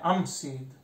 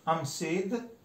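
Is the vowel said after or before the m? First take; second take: before; before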